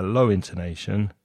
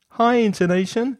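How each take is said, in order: First: "low intonation" dropped to a lower pitch. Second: "High intonation" pitched far above the usual voice, louder at the start. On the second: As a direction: lift the whole of "High intonation" up high. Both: Shown as a demonstration.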